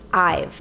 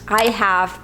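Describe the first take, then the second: First: It is said as one contracted word. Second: It is said as two full words.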